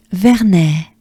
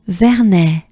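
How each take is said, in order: Both takes have the same delivery.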